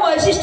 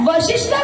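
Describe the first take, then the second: First: The first syllable has the vowel 'ai'. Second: The first syllable has the short vowel 'a'. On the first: The speaker calls it wrong. "वैशिष्ट ऋषी नाही आहे" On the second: The speaker calls it right. "वशिष्ठ ऋषी आहे"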